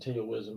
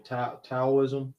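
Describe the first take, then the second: First: Said in the usual way. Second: Taoism attempted carefully, with a false start on the first syllable; corrected pronunciation of Taoism. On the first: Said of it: "I've always pronounced it Taoism". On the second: Shown as a demonstration. Guest trying the host's way of saying a word, corrected pronunciation of "Taoism". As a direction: try out "Taoism" as corrected, restarting after "Ta-". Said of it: "you pronounced it earlier correctly".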